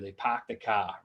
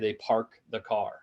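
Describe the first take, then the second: First: The R sounds are dropped, Boston style. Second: The R sounds are clearly pronounced. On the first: "So if you go to Boston, what do they do?" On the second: "They don't say"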